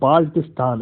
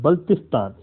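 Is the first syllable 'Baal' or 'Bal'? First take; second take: Baal; Bal. First: The first syllable sounds like 'Baal', with a long vowel. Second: The first syllable sounds like 'Bal', as in 'Balti'. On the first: The speaker calls it wrong. "It's not a बाल्टिस्तान" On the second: The speaker calls it right. "It's a बल्तिस्तान"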